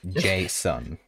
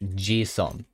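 First: The first vowel sounds like 'ay'. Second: The first vowel sounds like 'ee'. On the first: This is the English way of saying the name. The speaker calls it wrong. "it's not Jason in Japanese" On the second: This is the Japanese way of saying the name. The speaker calls it right. "It's more of Jison"

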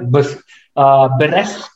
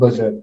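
First: The second syllable sounds like 'resk'. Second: The second syllable sounds like 'serk'. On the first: The speaker calls it wrong. "beresk is an incorrect pronunciation altogether" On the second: The speaker calls it right. "for the word berserk"

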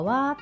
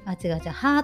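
First: The particle is pronounced as wa. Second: The particle is pronounced as ha. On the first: The character is read as a topic particle. The speaker calls it right. "わーとして読ませたい" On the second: The character is read literally as written. The speaker calls it wrong. "そのまま読んでしまう"

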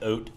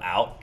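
First: The vowel sounds close to 'oat'. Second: The vowel sounds like a standard 'out'. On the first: "the whole Michigan, like, the oat" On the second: "instead of out"

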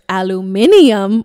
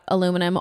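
First: It is said the British way. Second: It is said the American way.

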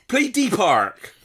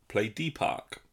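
First: It is said in a regional Bristol accent. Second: It is said in a standard English accent. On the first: The voice assistant understands the command. The speaker calls it right. "if I say it in a Bristol accent, you've got to go regional" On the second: The voice assistant misunderstands the command. The speaker calls it wrong. "In your normal voice"

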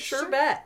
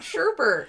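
First: The second syllable has no r sound. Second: The second syllable has an r sound. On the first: The speaker calls it right. "There's no second R" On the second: The speaker calls it wrong. "I don't know why people have always called it sherbet, but it's not sherbet"

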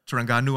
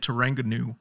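First: It is said in a local Malaysian way. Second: It is said in an Angmo Western accent.

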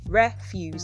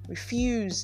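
First: The stress is on the first syllable. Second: The stress is on the second syllable. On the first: It is used as a noun. "That's the noun" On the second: It is used as a verb. "Refuse is the verb"

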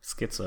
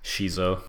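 First: The name begins with an sk sound. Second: The name begins with an sh sound. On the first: "it's like schizophrenia" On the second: "I was using it as"

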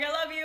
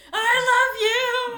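First: It is said at a normal volume. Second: It is said at a louder volume. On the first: A first, ordinary goodbye. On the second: A repeat because there was no answer.

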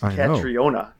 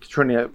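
First: The name is said with four syllables, Ka-tri-o-na. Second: The name is said with three syllables, Ka-tri-na. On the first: The speaker calls it right. "There's an I and an O in there. It's Katriona" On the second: The speaker calls it wrong. "I'm not sure you're pronouncing it correctly"

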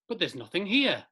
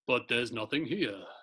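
First: It is read in a normal voice. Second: It is read in a put-on deep voice.

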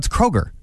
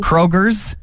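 First: The name ends without any s sound. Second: The name ends with an added s sound. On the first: The speaker calls it right. "no, it's Kroger" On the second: The speaker calls it wrong. "put the S on the end"

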